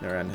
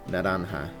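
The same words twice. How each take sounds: First: The R is said as a plain R. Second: The R is a quick tap, like D. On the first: The speaker calls it wrong. "I still can't say it right" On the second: The speaker calls it right. "Like the R needs to be like that weird, like D L R... like that"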